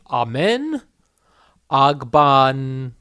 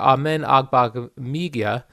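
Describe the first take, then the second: First: The name is said slowly, with hesitant pauses. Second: The name is said quickly, smoothly and confidently. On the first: The speaker calls it wrong. "I did that slowly with zero confidence" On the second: The speaker calls it right. "I'll say it like a newscaster"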